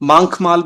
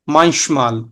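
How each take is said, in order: First: The ch is a harsh throaty kh sound. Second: The ch is a soft hissing sh-like sound. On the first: The speaker calls it wrong. "ये गलत है" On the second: The speaker calls it right. "ये साउंड कर रहा है श"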